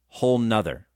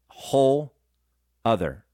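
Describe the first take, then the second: First: It is said with an n before other. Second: It is said without an n before other. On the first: "They put an N in there" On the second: "What they're actually saying is whole other"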